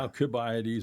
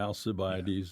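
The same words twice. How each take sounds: First: The c is said with a k sound. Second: The c is said with an s sound. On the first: "the hard" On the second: "soft uh, C"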